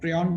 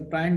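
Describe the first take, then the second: First: The word is pronounced the American way. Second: The word is pronounced the Indian way. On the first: "which they say in their country is the uh" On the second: "also known as the prion disease in India"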